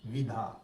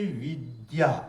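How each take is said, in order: First: The middle sound is an aspirated 'dh'. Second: The middle sound is a 'd' joined to 'y'. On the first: The speaker calls it wrong. "तो ये विधा नहीं है" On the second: The speaker calls it right. "शुद्ध उच्चारण"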